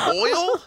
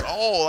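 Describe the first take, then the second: First: "Oil" as a very high "oy-ul?"; proper pronunciation. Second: "Oil" as a long, high Southern "all"; Southern pronunciation. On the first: Worker finally understands the customer, "Oil" pronounced fully, high. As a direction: question "Oil" incredulously, both sounds clear. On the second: Customer insists to the worker, "Oil" said Southern as "all". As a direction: drawl "Oil" into one flat syllable, "awl". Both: Retold or imitated. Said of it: "you don't speak properly".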